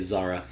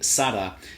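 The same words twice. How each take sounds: First: It begins with a z sound, English style. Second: It begins with an s sound, Latin American style.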